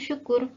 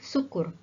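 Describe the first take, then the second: First: The first syllable is said with a y sound. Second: The first syllable is said without a y sound. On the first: The speaker calls it right. "di ejaannya ada huruf Y di situ, jadi seharusnya syukur" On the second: The speaker calls it wrong. "kita biasa mengucapkan beberapa kata tidak sesuai ejaannya"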